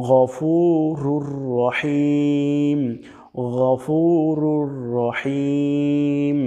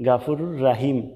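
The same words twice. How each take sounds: First: গফুরুর রহিম with a throaty gh and slow long u; right Arabic গফুরুর রহিম; correct ghafurur rahim. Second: গাফুরুর রাহিম with open a vowels; Bangla-style গাফুরুর রাহিম; wrong gafurur rahim. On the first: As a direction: recite গফুরুর রহিম slowly. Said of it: "বলতে হবে". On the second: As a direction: mistaken a sounds. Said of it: "এখানে দুইটা ভুল আমরা করে থাকি". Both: Shown as a demonstration.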